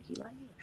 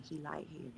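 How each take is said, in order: First: "hair" stressed and lifted in "He like hair", still soft. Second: "He" stressed in "He like hair", said soft and low. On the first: Host repeating her husband's love of hair, landing on "hair". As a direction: land on "hair" in "He like hair" with a lift. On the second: Host teasing that her husband is a hair man, leaning on "He". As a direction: lean on "He" in "He like hair". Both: Shown as a demonstration.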